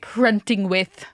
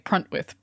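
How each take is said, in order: First: The name is said in full, with every syllable. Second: The name is shortened, with the middle syllable dropped. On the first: Upper-class people say it this way. "the fancy ass people say Pruntingwith" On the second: Working-class people say it this way. "The working people say Pruntwith"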